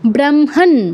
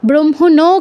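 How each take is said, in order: First: The word ends in a bare n sound. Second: The word ends in a full na syllable. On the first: The speaker calls it right. "নয়ের কিন্তু পূর্ণ উচ্চারণ হবে না" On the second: The speaker calls it wrong. "কেউ বলবেন না"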